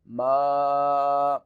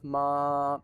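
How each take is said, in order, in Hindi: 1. आवाज़ खुले मुँह से निकलती है। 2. आवाज़ नाक से निकलती है। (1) "नाक में आवाज़ नहीं जानी चाहिए" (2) "नून गुन्ने की आवाज़ वो नाक में लेके आते हैं"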